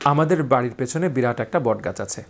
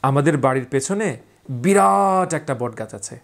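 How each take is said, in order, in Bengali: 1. বাক্যটি একঘেয়ে সুরে বলা হয়েছে। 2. বাক্যটি প্রাণবন্ত সুরে বলা হয়েছে। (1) "এটা একরকম।" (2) "আমার টোনালিটি দিয়ে বলবো"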